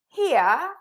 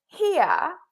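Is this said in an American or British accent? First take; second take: British; British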